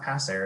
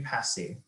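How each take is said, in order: First: The word ends with an 'air' sound. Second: The word ends with an 'ay' sound. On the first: The speaker calls it wrong. "it's not passer" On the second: The speaker calls it right. "it would be passé"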